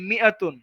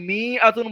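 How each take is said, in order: First: The first vowel is short, with no stretching. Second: The first vowel is stretched out long. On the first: The speaker calls it right. "কোন টান হবে না" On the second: The speaker calls it wrong. "এমন করে কিন্তু বলা যাবে মি আতুন বলা যাবে না আলিফের কারণে"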